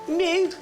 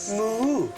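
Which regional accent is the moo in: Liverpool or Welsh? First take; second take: Liverpool; Welsh. First: The moo is in a Liverpool accent. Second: The moo is in a Welsh accent.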